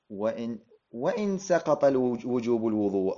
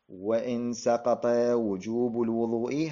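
First: The phrase carries a concessive 'even if' intonation. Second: The phrase carries a conditional 'if' intonation. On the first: The clause means 'even if', not a condition. "هذا هنا أبرز الوصلية" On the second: The clause sets a condition for what follows. "هذه هنا صارت شرطية"

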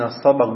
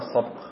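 First: The b is followed by an a vowel. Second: The b has no vowel after it. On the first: It means the prize staked in a wager. "بفتح الباء" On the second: It means the act of racing or competing. "بالسكون الباء"

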